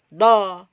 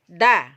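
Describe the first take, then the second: First: The sound is thick, made at the back. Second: The sound is thin, made at the front. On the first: The speaker calls it wrong. "Kalau kita cekung-cekungkan lisan seperti kita menyebut misalnya mahroj to akan menjadi seperti da" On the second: The speaker calls it right. "Harus kita keluarkan keluar"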